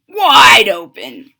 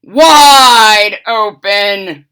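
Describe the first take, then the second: First: Loud, slow command; wife yelling again; yelled. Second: Loud, slow, drawn-out command; wife yelling at the fox; yelled. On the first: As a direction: stretch it out loud. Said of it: "Missus DeSoto said". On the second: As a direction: stretch the words out loud. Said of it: "yelled his wife". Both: Acted.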